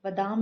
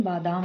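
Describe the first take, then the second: First: बादाम said as बदाम; short first vowel. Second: Said in the usual way. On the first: Shown as a demonstration. Teacher showing students an error, short first vowel. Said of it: "नहीं". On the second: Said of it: "होता है".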